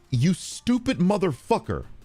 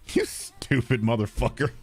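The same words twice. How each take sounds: First: It is said in an angry, intense voice. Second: It is said in a light, mild voice. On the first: The insult is meant seriously. "that sounds angry" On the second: The insult is meant as a joke. "it's not really that intense"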